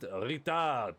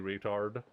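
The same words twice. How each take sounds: First: It is said in a French accent. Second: It is said in the speaker's plain accent.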